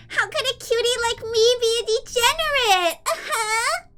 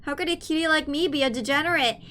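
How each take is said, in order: First: Put-on much higher, sing-song cute anime girl; cutesy high voice. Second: Said in the usual way. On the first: Shown as a demonstration. Streamer acting coy to chat in a high cutesy voice. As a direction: play it cute and innocent, pitched way up.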